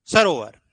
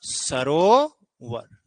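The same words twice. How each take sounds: First: Sarovar said quickly and louder; teacher snaps out Sarovar as the final answer; crisp emphatic answer. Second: Sarovar stretched very slowly, syllable by syllable; teacher spells out Sarovar slowly for the class; drawn-out demo word. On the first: Teacher confirms Sarovar to students, quick and louder. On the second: Teacher reveals the answer Sarovar to students, stretched very slowly. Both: Shown as a demonstration. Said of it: "और बताओ क्या बनेगा".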